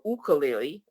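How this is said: It is said the Hawaiian way.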